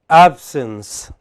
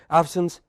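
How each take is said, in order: First: The word is said slowly and calmly. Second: The word is said quickly and rushed. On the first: The speaker calls it right. "do it in a relaxed manner" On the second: The speaker calls it wrong. "not in a hurry. Don't say"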